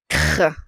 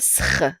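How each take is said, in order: First: The cluster begins with a hard k sound. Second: The cluster begins with an s sound. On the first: The speaker calls it right. "C suivi par une consonne, c'est le son que" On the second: The speaker calls it wrong. "On dit pas sr"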